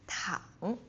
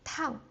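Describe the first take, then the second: First: The pitch dips low and comes back up. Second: The pitch falls quickly from high to low. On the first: "the third tone, like ah, like a roller coaster" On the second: "the fourth tone, like the bungee jump, like going down really quick"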